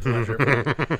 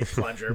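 First: Drawn-out laughing repeat; louder, giggling repeat. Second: Said in the usual way. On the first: Real, not acted. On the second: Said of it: "repeated word, first take".

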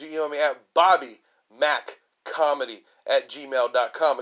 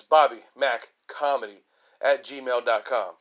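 First: Said in the usual way. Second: Slow and deliberate, each part clear; slow it down so they catch the address; slow, spelled-out email. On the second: Shown as a demonstration. Comedian repeating his email for listeners, slowly.

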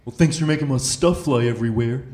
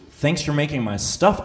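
First: The cop's dry complaint, slightly put-on; grumpy cop. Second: Slow disbelieving repeat of "stuff"; incredulous. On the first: Cop grumbling at the driver after the stop, lightly voiced. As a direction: quote the officer's sarcastic gripe. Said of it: "he just looks at me and he goes". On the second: Real, not acted. Comedian echoing the cop's words back to the audience, slow and incredulous. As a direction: drag out "Thanks for making my stuff?" in disbelief, rising on "stuff".

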